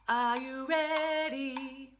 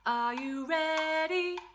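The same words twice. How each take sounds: First: The voice falls at the end. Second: The voice rises at the end.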